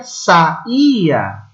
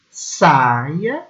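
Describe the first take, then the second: First: Saía split as sa-Í-a, strong stress on the I; slow sa-Í-a, the I alone in its syllable; three-syllable verb. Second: Saia drawn out as SAI-a, stress on the first syllable; slow SAI-a, the I gliding with the A; two-syllable noun. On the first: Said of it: "o verbo saía tem três sílabas". (saía devagar, três sílabas: sa-Í-a) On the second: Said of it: "Separando as sílabas, o substantivo fica saia". (saia devagar, duas sílabas: SAI-a) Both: Shown as a demonstration.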